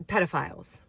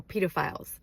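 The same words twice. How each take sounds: First: "pedophiles" with PED like bed; short e pronunciation. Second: "pedophiles" with PEE like feet; long e pronunciation. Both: Shown as a demonstration. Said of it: "or pedophiles".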